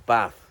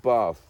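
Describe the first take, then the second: First: Bath is said in a northern English accent. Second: Bath is said in a southern English accent.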